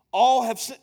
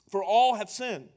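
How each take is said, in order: First: "All" punched loud; stress on all. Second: Said in the usual way. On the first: Shown as a demonstration. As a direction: hit the word "All" hard.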